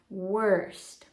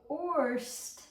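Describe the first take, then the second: First: The vowel sounds like 'er', as in 'her'. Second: The vowel sounds like 'or', as in 'for'. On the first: The speaker calls it right. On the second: The speaker calls it wrong.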